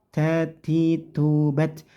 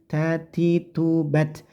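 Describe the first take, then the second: Both takes have the same delivery.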